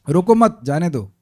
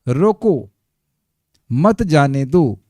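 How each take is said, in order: First: The pause comes right after मत. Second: The pause comes right after रोको.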